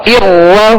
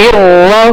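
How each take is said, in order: Both takes have the same delivery.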